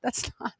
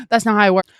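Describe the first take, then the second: First: Whispered laugh through the words; laughing under breath. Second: Louder, emphatic that's not how it works; firm loud restart. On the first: Mocking people who try to drink it away, laughing whisper. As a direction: break into a breathy laugh mid-phrase. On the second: Correcting viewers who numb their emotions, firm and loud. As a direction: say it clearly and hard. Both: Real, not acted.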